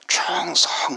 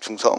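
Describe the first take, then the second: First: It is shouted loudly with strained earnest effort. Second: It is said casually with a playful, joking tone.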